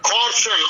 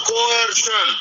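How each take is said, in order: First: Coercion said as "KOR-shun", slowly; two-syllable pronunciation. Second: Coercion said as "ko-ER-shun", slowly; three-syllable pronunciation. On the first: Teacher dictating to students, coercion pronounced "KOR-shun". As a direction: run coercion's first vowels into one: "KOR-shun". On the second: Teacher showing students another way, coercion pronounced "ko-ER-shun". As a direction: split coercion's vowels: "ko-ER-shun". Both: Shown as a demonstration. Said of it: "they pronounce it as".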